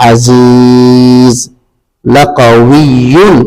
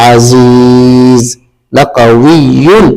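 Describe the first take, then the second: No difference in how they are said.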